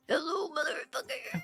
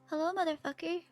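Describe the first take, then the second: First: It is said loudly and forcefully from the gut. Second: It is said in a plain, relaxed voice.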